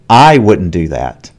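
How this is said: The word 'I' is said with stress. Maybe someone else would do it. "here there is stress on I"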